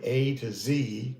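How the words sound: The letter Z is said the American way. "we say A to Z"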